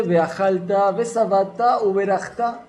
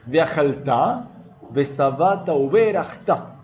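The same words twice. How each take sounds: First: Lightly chanted blessing words, stress on the last syllable; sung innocently. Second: Veajalta read slowly with stress on the syllable "jal"; slow deliberate veajalta, besabata, uberachta; careful correct reading. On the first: Retold or imitated. Teacher imitating people singing the blessing carelessly. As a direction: chant veajalta as a singsong tune. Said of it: "mucha gente lo canta inocentemente". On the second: Shown as a demonstration. Teacher modeling the careful correct reading. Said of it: "hay que tratar de esforzarse y recordar y leer".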